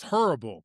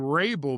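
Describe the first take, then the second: First: The name begins with an H sound. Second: The name begins with an R sound. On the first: The speaker calls it right. "but it's horrible" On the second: The speaker calls it wrong. "I used to say Rabel"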